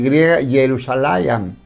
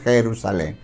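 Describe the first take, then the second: First: The word begins with a y sound. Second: The word begins with a Spanish j sound. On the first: This is the original Hebrew form. "Jerusalén se escribe con Y" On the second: This is the changed modern form. "nosotros ya lo leemos"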